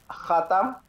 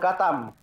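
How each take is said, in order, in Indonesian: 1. Diawali dengan bunyi tenggorokan yang serak. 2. Diawali dengan bunyi 'k' keras yang biasa. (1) "kata eh, khatam" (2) "disebutnya dengan katam"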